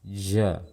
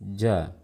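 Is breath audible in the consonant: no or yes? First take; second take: yes; no. First: The consonant has clearly audible breath flowing out. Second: The consonant is voiced with no audible breath. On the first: The speaker calls it wrong. "jim dengan hams, lawan dari jahar" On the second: The speaker calls it right. "Seperti ini suara jim fasih"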